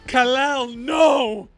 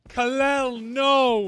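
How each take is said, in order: First: It is said with strong, exaggerated emotion. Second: It is said with little, restrained emotion.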